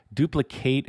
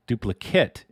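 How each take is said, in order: First: DUPLICATE with a full "kate" ending; verb pronunciation. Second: DUPLICATE with a reduced "kit" ending; noun pronunciation. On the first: Streamer explaining verb versus noun, duplicate ending in "kate". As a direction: say duplicate as a verb, long A in the last syllable. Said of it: "duplicate is the verb". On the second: Streamer explaining noun versus verb, Duplicate ending in "kit". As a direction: say Duplicate as a noun, short last vowel. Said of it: "the noun". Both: Shown as a demonstration.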